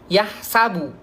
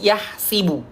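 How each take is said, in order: First: The vowel after the s is a. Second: The vowel after the s is i. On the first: This is the usual reading. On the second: This is the variant reading.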